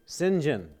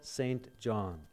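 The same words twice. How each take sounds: First: The first part is said without 'saint', like 'sin'. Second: The first part is said as full 'saint'. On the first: It avoids the word saint, as the bearer preferred. "He did not like the term saint, so he said, just say" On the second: It is read as written on the title. "if you were looking at his title, you would pronounce it"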